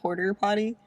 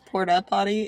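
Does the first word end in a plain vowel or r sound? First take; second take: r sound; plain vowel. First: The first word ends with an r sound. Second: The first word ends in a plain vowel. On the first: The speaker calls it wrong. "and not porter potty" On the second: The speaker calls it right. "did you know it was porta potty"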